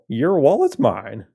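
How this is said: It is said in a put-on cowboy voice. "what's a cowboy sound like?"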